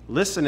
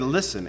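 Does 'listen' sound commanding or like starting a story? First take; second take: story start; commanding. First: It is said as an inviting story opener. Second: It is said as a firm command. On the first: A story is about to begin. "as he's about to tell the" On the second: Pay attention to me now. "It was to tell my sister and me to listen to him"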